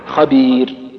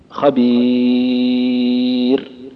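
First: The long vowel is held for two counts. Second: The long vowel is held for four counts. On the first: "قصرت" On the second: "وسطت"

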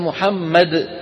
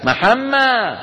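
First: The final d sound is pronounced. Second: The final d sound is dropped. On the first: "شو صار بالدال؟" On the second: "إخواننا بمصر بالأرياف يقول لك"

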